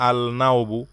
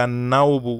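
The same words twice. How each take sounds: First: "আল নাওবু" with a separate l before n; wrongly sounded l. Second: "আন-নাওবু" with no l and a doubled n; silent article l. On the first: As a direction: keep the l apart in "আল নাওবু", as a wrong example. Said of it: "এখানে আমরা বলবো না". ("আল নাওবু", লাম উচ্চারণ করে ভুল রূপ) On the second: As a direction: merge the article into a held n in "আন-নাওবু". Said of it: "এখানে হবে". ("আন-নাওবু", লাম সাইলেন্ট রেখে) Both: Shown as a demonstration.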